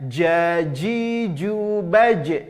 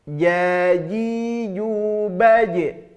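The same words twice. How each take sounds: First: The j sound is harsh, made with the tongue tip. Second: The j sound is soft, made with mid-tongue. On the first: The speaker calls it wrong. "Kesalahannya jaji jubaj. Salah. Itu yang menempel ujung lidah kita" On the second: The speaker calls it right. "yang menempel seharusnya adalah pertengahan lidah kita ke langit-langit atas"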